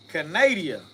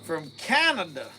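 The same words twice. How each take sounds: First: Canada said as kuh-NAY-dee-uh, stress on NAY; playful Canada as kuh-NAY-dee-uh, extra syllable; joking mispronunciation. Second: Said in the usual way. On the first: Shown as a demonstration. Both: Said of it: "I'm just being funny".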